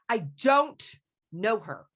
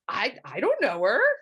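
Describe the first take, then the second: First: It sounds angry. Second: It sounds surprised.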